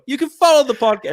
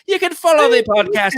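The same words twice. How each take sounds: First: It is spoken in a put-on British accent. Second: It is spoken in a put-on Irish accent. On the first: "I'm going to go British here" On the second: "Let's do an Irish accent"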